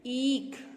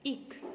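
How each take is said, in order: First: ईख with long ee, "eekh"; careful model "eeekh" for ईख; correct pronunciation. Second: ईख with short i, "ikh"; wrong pronunciation. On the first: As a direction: stretch the vowel of ईख. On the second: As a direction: say ईख very short, soft. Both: Shown as a demonstration. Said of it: "ईख नहीं".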